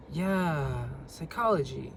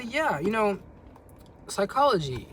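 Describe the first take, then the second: First: "Yeah, psychology" with a falling, uninterested "psychology"; bored tone. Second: Said in the usual way. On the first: Shown as a demonstration. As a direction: sound bored so she takes the hint. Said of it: "if I was to say it like that". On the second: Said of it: "You say".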